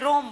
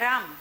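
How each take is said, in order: First: The vowel is an 'o' sound. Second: The vowel is an open 'aa' sound. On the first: This is the North Gujarat dialect pronunciation. "તો એ બધા રોમ બોલે" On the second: This is the standard pronunciation. "આપણે કહીએ ને કે રામ"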